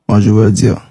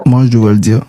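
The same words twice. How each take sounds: The two takes are said the same way.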